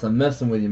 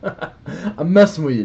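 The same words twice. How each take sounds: First: Said in the usual way. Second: Chuckling through the words; teasing with a laugh. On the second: Real, not acted.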